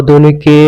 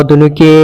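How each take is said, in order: Both takes have the same delivery.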